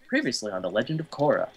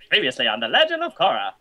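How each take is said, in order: First: It is said in a plain, normal voice. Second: It is said in an imitated announcer voice.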